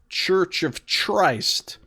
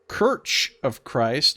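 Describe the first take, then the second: First: The first word begins with a ch sound. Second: The first word begins with a hard k sound. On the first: "or you could say Church of Christ" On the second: "you could say Kirch of Christ"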